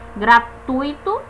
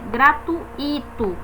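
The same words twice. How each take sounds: First: The u and i share one syllable. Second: The u and i fall in separate syllables. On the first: The speaker calls it right. "é um ditongo, fica junto na mesma sílaba" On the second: The speaker calls it wrong. "como se fosse um, um, um hiato, mas não é"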